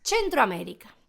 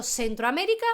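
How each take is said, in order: First: "Centroamérica" as chen-tro, falling; Italian pronunciation. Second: "Centroamérica" with an s sound, rising; Spanish pronunciation. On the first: Teacher converting it to Italian, "Centroamérica" with ch. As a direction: say "Centroamérica" starting with ch. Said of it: "cómo se pronuncia". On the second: Teacher reading the written word, "Centroamérica" with Spanish s. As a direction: say "Centroamérica" as sen-tro, left questioning. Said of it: "si vemos ahí". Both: Shown as a demonstration.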